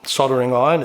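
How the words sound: It is said in a North American pronunciation.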